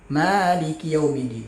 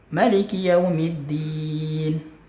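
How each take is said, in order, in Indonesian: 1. Vokal pertama, ma, dibaca panjang. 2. Vokal pertama, ma, dibaca pendek. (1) "panjang ma-nya" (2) "boleh ma-nya pendek"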